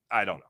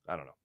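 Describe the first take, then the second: First: Said in the usual way. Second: Barely audible throwaway; lower, softer mutter under the breath; much softer trailing mumble. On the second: Real, not acted. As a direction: drop the voice to almost nothing. Repeated shrug, then muttered.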